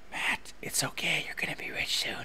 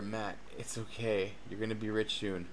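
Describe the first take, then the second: First: Whisper. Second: Said in the usual way. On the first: Shown as a demonstration. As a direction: whisper it like a comforting secret. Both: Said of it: "I want someone to whisper in my ear".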